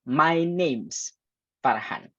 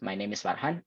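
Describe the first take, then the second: First: The word is is shortened to an s. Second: The word is is said in full.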